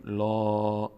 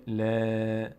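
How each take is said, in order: First: "لا" as a long, rounded "law"; full lam. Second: "ل" as a long, front "laa", not rounded; thin lam. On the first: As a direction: make "لا" heavy with the mouth opened upward. («لا» پر، درشت و کشیده) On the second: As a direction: keep "ل" light and spread. («ل» باریک و کشیده) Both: Shown as a demonstration.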